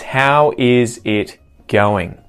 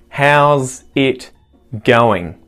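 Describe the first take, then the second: First: The word 'is' is said in full. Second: The word 'is' is contracted onto 'how'. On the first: "not contracting the phrase" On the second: "only contracting part of the phrase"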